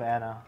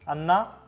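First: The name is said with English pronunciation. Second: The name is said with Japanese pronunciation. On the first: This is how the name is usually said elsewhere. "Instead of" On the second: This is how the name is said at home. "when I call Anna at home, I usually go like"

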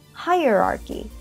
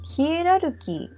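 First: It begins with a 'hai' sound. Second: It begins with a 'hi-e' sound.

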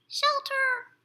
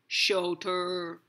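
First: The word is squeaked in a tiny mouse voice. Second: The word is spoken in a low, deep voice. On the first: "You can say it like a mouse" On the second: "You can say it in a deep voice"

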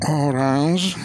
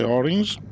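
First: It is read out with Italian-style sounds. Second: It is said with English-style sounds. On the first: The speaker calls it wrong. "che invece non si dice così" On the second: The speaker calls it right. "si dice orange"

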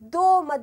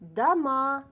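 First: The stress is on the first syllable. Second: The stress is on the last syllable. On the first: The speaker calls it wrong. "Eğer doma dersiniz yanlış olur, bambaşka bir anlam çıkıyor" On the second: The speaker calls it right. "burada vurgu A üzerine geliyor"

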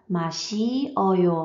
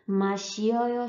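First: It is said slowly, each syllable kept apart. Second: It is said quickly, with the syllables run together.

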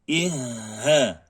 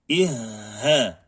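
No difference in how they are said.

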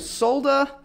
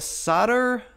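First: It is said in an Australian accent, with the L. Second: It is said in an American accent, without the L.

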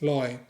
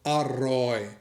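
First: The word is shortened to loi. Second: The word is said in full as aroi. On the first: This is the southern regional form. "ถ้าคนไปเที่ยวภาคใต้ส่วนใหญ่แค่พูดลอย" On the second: This is the standard form, spoken as it is written. "ถ้าออกเสียงถูกออกเสียงเหมือนคนเขียนต้องพูดอร่อย"

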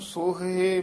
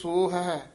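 First: The two words merge into one word. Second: The two words are said separately. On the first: The speaker calls it wrong. "ਇਸ ਨੂੰ ਸੋਹੇ ਮੋਹੇ ਨਹੀਂ ਕਹਿਣਾ" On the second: The speaker calls it right. "ਇਸ ਤਰ੍ਹਾਂ ਉਚਾਰਨ ਕਰਨਾ"

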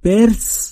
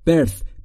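First: The final sound is not a dental th. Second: The final sound is a dental th. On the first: The speaker calls it wrong. "birth نیست" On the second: The speaker calls it right. "میشه birth"

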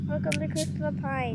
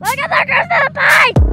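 First: It is said at a normal volume. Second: It is yelled even louder.

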